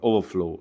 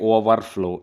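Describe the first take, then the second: First: The two parts run together without a break. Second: There is a break between the two parts. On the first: The speaker calls it right. "இந்த இரை cut பண்ணிக்கோங்க" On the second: The speaker calls it wrong. "Don't say over flow"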